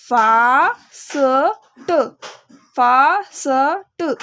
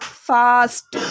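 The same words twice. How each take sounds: First: Teacher stretches fast slowly for beginners; slow stretched blending. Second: Said in the usual way. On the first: Shown as a demonstration. Beginner teacher blending the word very slowly. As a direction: drag fast out very slowly, sound by sound. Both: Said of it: "तो क्या बना?".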